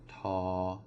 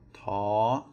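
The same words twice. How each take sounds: First: The syllable is said on a level pitch. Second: The syllable is said on a high pitch. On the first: "it's going to be a flat tone" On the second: "then it is going to be a high, a high tone"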